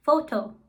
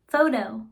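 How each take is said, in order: First: Foto said the German way with pure o vowels; Foto, German style, clean short vowels. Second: Photo said the English way, FOH-toh. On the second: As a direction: photo in plain American English. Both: Shown as a demonstration. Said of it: "For instance".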